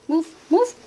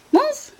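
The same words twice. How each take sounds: First: Repeated nudging command to a pet; coaxing command. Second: Much higher, rising singsong move; high pleading call. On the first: Telling her dog Dio to get out of the way, coaxing. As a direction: push the dog along, rising. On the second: Urging her dog Dio to move, high rising call. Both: Real, not acted.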